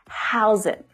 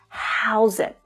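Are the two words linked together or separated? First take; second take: linked; linked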